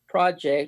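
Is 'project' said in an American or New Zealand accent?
American. It is said in a plain American accent.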